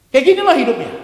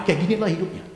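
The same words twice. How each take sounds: First: Much higher and louder exclamation; preaching shout. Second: Said in the usual way. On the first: Real, not acted. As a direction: cry it out to the whole congregation. Same words repeated at full force. (seruan khotbah yang lantang)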